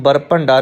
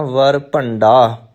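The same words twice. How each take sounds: First: ਬਰ ਭੰਡਾ starting with a b sound; wrong b. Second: ਵਰ ਭੰਡਾ starting with a clear v; correct v. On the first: Teacher showing what not to say, ਬਰ ਭੰਡਾ with b. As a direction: close the lips for the b of ਬਰ ਭੰਡਾ. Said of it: "ਇਹਨੂੰ ਬਰ ਭੰਡਾ ਨਹੀਂ ਕਹਿਣਾ". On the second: Teacher giving correct reading, ਵਰ ਭੰਡਾ with clear v. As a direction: open ਵਰ ਭੰਡਾ on v, not b. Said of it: "ਪਾਠ ਵਰ ਭੰਡਾ". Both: Shown as a demonstration.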